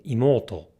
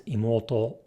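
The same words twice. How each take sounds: First: "imoto" misaccented as English speakers say it; wrong pitch accent. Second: "imoto" with the correct Japanese pitch pattern; correct pitch accent. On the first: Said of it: "many English natives will say imoto". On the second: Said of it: "instead of the correct". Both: Shown as a demonstration.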